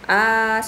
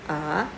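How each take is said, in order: First: The pitch stays high and level. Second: The pitch rises from mid to high. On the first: "seperti orang menyanyi" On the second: "Nada dua ... seperti orang bertanya"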